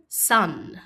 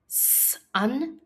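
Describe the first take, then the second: First: Said in the usual way. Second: "Sun" split into a held "sss", then "un"; sounded out. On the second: Shown as a demonstration. Teacher asking pupils to listen, Sun split as s, un. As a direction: pause after the S in "Sun".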